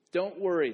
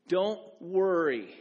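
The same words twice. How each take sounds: First: Said in the usual way. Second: "Don't worry" drawn out slow, each word weighted; slow emphatic don't worry. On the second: Shown as a demonstration. Pastor spelling out the first rule, slow and weighty. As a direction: lay "Don't worry" down slowly and firmly. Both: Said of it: "The first don't is this".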